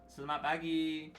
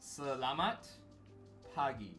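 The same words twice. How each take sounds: First: The syllables are run together quickly and loosely. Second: Every syllable is pronounced slowly and clearly. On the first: "when you say it in a sentence, it's like" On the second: "this is me purposefully pronouncing it out, enunciating it"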